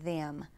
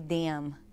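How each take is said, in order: First: The word begins with a th sound. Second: The word begins with a d sound. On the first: "instead of" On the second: "with a D"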